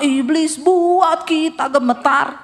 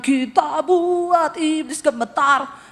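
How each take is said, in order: First: Slow, louder reversed chant. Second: Slow, rising praise chant; mock church singing. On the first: Retold or imitated. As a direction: flip it, now the devil wins. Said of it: "Sampai di rumah". (nada mengejek orang Kristen takut) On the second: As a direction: sing it like proud churchgoers. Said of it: "kalau nyanyi". (sung, nyanyian pujian yang dibuat-buat)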